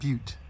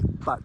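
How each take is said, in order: First: The word rhymes with cute. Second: The word rhymes with cut. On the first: The speaker calls it right. "This is Cly Butte" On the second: The speaker calls it wrong. "intentionally mispronounce it and say but"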